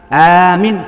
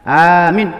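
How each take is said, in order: No difference in how they are said.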